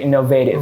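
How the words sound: The vowel in the -ative ending is fully pronounced. "di American"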